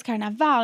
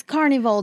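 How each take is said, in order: First: Carnaval said the Brazilian way, ending in "vow"; Portuguese pronunciation. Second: Said in the usual way. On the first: Retold or imitated. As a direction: say "Carnaval" with a final "ow" for the l. Same question in English, then Portuguese.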